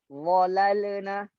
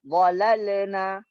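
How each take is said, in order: The two takes are said the same way.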